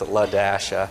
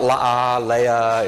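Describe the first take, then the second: First: The name is said with the dash sounded out. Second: The name is said without sounding the dash. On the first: The speaker calls it right. "You pronounce the dash" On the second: The speaker calls it wrong. "It's not La Leia"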